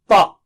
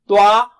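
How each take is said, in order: First: No w-like glide follows the consonant. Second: A w-like rounded glide follows the consonant. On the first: The speaker calls it right. "It is pa" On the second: The speaker calls it wrong. "don't say twa"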